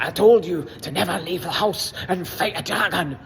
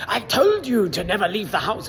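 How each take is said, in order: First: Mock Scottish father, scolding in a put-on brogue; poorly faked Scottish dad telling his son off; bad Scottish accent. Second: A bad mock Scottish dad, slightly higher; hammed-up Scottish father scolding his son; bad Scottish accent. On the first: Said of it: "Scottish father". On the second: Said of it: "worst Scottish accent in the world".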